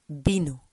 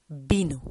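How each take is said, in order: First: It begins with a b sound. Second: The same.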